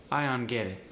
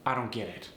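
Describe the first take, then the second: First: "don't" as "unt"; initial D dropped. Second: Said in the usual way. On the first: Shown as a demonstration. Teacher demoing dropped initial consonant. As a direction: drop the D of "don't". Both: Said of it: "initial consonants are sometimes dropped".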